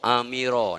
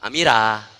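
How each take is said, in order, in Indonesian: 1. Suku kata terakhir punya vokal gelap dan membulat. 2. Suku kata terakhir punya vokal terang dan terbuka. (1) "Ro, Amira nama awak" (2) "Tapi orang yang tak faham"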